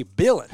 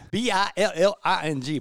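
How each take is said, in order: First: Billin said with a dropped g in a loud Alabama twang; Alabama accent. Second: Said in the usual way. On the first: Retold or imitated. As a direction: say Billin like a Southern Alabama man, louder. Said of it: "That Alabama accent".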